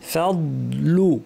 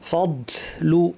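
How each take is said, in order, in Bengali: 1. d শব্দটি আস্তে করে l-এ মিলিয়ে যায়। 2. d শব্দের সময় বাতাস শব্দসহ বের হয়। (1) "আস্তে আস্তে দদের আওয়াজ মিলিয়ে যাবে" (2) "অনেকের বাতাস বের হয়ে যায়"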